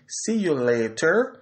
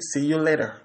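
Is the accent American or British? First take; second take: British; American. First: The t in later is a clear t. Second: The t in later sounds like a soft d. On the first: "l'anglais dit see you later" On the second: "l'américain dit see you later"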